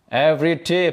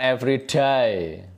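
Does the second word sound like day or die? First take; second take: day; die. First: The second word sounds like day. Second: The second word sounds like die. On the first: It means each day. The speaker calls it right. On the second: It sounds like a word about dying. The speaker calls it wrong.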